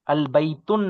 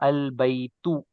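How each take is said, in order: First: The word ends with an n sound. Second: The word ends without an n sound. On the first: The speaker calls it wrong. "नहीं हो सकता" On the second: The speaker calls it right. "Without नून का साउंड"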